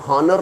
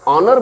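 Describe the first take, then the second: First: The word begins with an h sound. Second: The word begins with a vowel sound. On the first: The speaker calls it wrong. "हॉनर नहीं बोलते हैं" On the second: The speaker calls it right. "ऑनर बोलते हैं"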